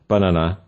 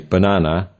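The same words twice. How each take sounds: First: The stress is on the first syllable. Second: The stress is on the second syllable. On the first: The speaker calls it wrong. "rather than banana" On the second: The speaker calls it right. "We say banana"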